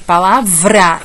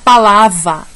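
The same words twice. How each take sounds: First: The R after the V is clearly sounded. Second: The R after the V is left out. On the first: The speaker calls it right. "é palavra" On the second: The speaker calls it wrong. "Eu não posso falar palavra"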